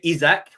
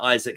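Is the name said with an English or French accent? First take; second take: French; English. First: It is said with a French accent. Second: It is said with an English accent.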